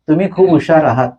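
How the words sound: It is said as a statement, falling. The listener is told they are clever. "पहिल्या वाक्यात मी तुम्हाला सांगितलं की तुम्ही हुशार आहात"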